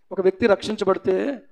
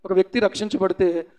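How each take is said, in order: Both takes have the same delivery.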